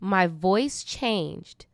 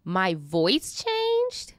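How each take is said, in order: First: Slow flat statement. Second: Slow incredulous question. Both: Real, not acted.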